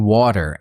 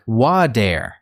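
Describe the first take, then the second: First: Said in the usual way. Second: "water" with the T softened to a D, wa-der; American soft T. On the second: Shown as a demonstration. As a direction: say "water" American-style, slowly, T turned into a quick D. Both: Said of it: "might not clearly pronounce the T".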